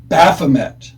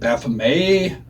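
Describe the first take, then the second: First: The word ends with a clear t sound. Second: The word ends without a t sound. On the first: The speaker calls it right. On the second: The speaker calls it wrong.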